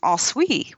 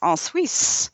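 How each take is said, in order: First: The name ends without an s sound. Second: The name ends with an s sound. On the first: The speaker calls it wrong. "without the s on the end" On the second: The speaker calls it right. "the locals explained to us that it was"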